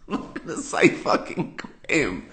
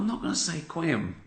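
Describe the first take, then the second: First: Breathy laughing refusal, slower; giggling mock outrage; laughing through it. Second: Said in the usual way. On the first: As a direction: laugh as you swear it. Refusing the lawyers' word.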